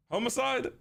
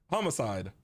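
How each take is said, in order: First: High, rising "Homicide" starting like "home"; "Homicide" with long o. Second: Low, settled "Homicide" starting with "hah"; "Homicide" with short o. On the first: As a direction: say "Homicide" as HOME-ih-side, questioning. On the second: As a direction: say "Homicide" as HAH-mih-side, falling. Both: Shown as a demonstration. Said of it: "Homicide or homicide?".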